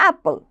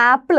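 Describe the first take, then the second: First: ആപ്പിൾ said short, as pal; ആപ്പിൾ with the first vowel dropped, falling; mock correct pronunciation. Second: ആപ്പിൾ as Malayalam speakers say it, long aa; ആപ്പിൾ as in everyday Indian English; Indian pronunciation. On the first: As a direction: clip ആപ്പിൾ into a quick pal. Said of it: "അങ്ങനെയല്ല നമ്മൾ ഉച്ചരിക്കേണ്ടത്". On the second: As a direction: say ആപ്പിൾ the usual Indian way, with a long first vowel. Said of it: "അത് നമ്മുടെ Indian പ്രൊനൗൺസിയേഷനാണ്". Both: Shown as a demonstration.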